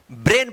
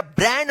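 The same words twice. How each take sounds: First: "ब्रेन" with a long closed e; AI read as E. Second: "ब्रांड" as bran, open ai vowel; mispronounced BRAIN. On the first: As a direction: say "ब्रेन" as brayn, vowel like pay. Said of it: "ए होगा". ("ब्रेन" को लंबे 'ए' स्वर से बोलें) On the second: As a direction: misread "ब्रांड" to rhyme with ran. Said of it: "ब्रांड मत पढ़िएगा". ("ब्रांड" को खुले 'ऐ' से 'ब्रैन' बोलें) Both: Shown as a demonstration.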